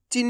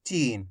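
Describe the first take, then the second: First: चीन with a short, quick i; short vowel. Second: चीन with a long, stretched ee; drawn-out vowel. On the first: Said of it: "नहीं पढ़ना". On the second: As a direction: stretch the ee in चीन, letting it fall. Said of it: "खींच खींच के पढ़ेंगे". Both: Shown as a demonstration.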